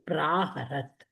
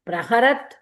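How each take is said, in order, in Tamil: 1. 'pr'க்குப் பிறகு வரும் உயிரெழுத்து நெடில். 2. 'pr'க்குப் பிறகு வரும் உயிரெழுத்து குறில். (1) "it should be பிராஹரத்" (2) "பிரஹரத் is wrong"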